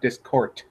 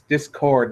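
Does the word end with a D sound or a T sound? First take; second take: T sound; D sound. First: The word ends with a T-like sound. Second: The word ends with a clear D sound. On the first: The speaker calls it wrong. "not Discord" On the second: The speaker calls it right. "with the D's at the front and the end"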